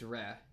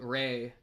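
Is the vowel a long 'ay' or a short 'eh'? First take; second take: short eh; long ay. First: The vowel is a short plain 'eh'. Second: The vowel is a long 'ay' glide. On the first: The speaker calls it right. "it's Re" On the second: The speaker calls it wrong. "Instead of Ray"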